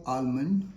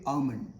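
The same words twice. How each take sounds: First: 'almond' as al-mund, with a clear L; L sounded. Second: 'almond' as ah-mund, no L; silent L. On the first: Teacher shows learners the mistake, L sounded. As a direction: say 'almond' wrongly voicing the L. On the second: Teacher models for learners, silent L. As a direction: say 'almond' leaving out the L sound. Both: Shown as a demonstration. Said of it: "L is silent".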